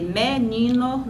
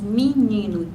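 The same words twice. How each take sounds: First: The first vowel is a mid e sound. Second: The first vowel is raised to an i sound. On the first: "ao invés de dizer" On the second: "esse e médio foi alçado para uma vogal alta"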